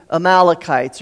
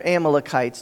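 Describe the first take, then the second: First: Amalekites with the stress on the MAL; stress on second syllable. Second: Amalekites with the stress on the opening AM; stress on first syllable. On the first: Preacher naming the enemy, Amalekites stressed on its second syllable. Gives two ways to pronounce name. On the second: Preacher offering another pronunciation, Amalekites stressed on its first syllable. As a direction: say Amalekites as AM-uh-luh-kites. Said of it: "depending on how you wanna pronounce it". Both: Shown as a demonstration.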